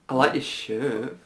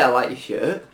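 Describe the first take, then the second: First: It is said in a put-on, camp voice. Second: It is said in a plain, ordinary voice. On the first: The compliment sounds flirtatious. "Like that" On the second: A neutral compliment. "I could say I like your shirt"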